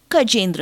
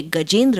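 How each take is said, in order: First: "कजेंद्र" with k replacing g; Tamil speakers' pronunciation. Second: Said in the usual way. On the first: Shown as a demonstration. Lecturer showing how Tamils say गजेंद्र, "कजेंद्र" with initial k. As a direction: open "कजेंद्र" on a voiceless k. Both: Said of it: "वे गजेंद्र को कजेंद्र कहेंगे".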